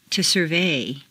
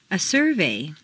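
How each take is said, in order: First: SurVEY, stressed on the second syllable. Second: SURvey, stressed on the first syllable. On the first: Teacher models verb "survey", second-syllable stress. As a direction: hit VEY in "survey". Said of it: "to the second syllable". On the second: Teacher models noun "survey", first-syllable stress. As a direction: hit SUR in "survey". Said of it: "first syllable for nouns". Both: Shown as a demonstration.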